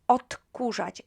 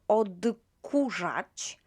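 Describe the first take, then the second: First: The consonant before k sounds like t. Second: The consonant before k is a voiced d. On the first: The speaker calls it right. "this D sounds more like T" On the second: The speaker calls it wrong. "instead of odkurzać"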